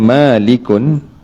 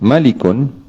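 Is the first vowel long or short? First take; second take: long; short. First: The first vowel is held long. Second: The first vowel is kept short. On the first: It means the one who owns. "yakni dengan baca panjang lah" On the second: It means the one who rules. "yakni pendek"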